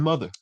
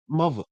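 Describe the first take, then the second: First: Said in the usual way. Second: "mother" said as muvva; up-north "mother", muvva. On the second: Shown as a demonstration. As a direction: put a v in "mother" and drop the r. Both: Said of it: "where's the V in".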